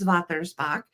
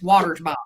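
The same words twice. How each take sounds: First: It is said with a German pronunciation. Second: It is said with an American pronunciation.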